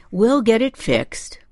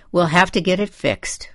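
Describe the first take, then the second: First: Dad's soothing promise, pitched up; gentle reassurance; reassuring. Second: Mildly disgusted, a bit raised in pitch; understated disgust. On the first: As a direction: reassure her from the back seat. Dad reassures the upset mother. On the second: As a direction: say it with a touch of disgust. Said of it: "I said in a disgusted voice". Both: A narrator's reading.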